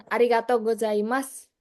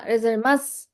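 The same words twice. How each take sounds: First: "Arigato gozaimasu" said in full, every syllable clear; the polite phrase said out completely; full careful form. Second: "Gozaimasu" slurred and shortened like rezemas; a lazy native shortcut of the phrase; clipped casual form. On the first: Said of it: "Kayak misalkan". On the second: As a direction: blur "Gozaimasu" into a quick rezemas. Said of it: "lama-lama". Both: Shown as a demonstration.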